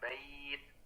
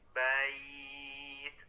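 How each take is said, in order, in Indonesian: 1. Glide vokal itu pendek dan tiba-tiba. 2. Glide vokal itu lembut dan memanjang. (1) "bukan bait" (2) "cara membacanya itu dilembutkannya"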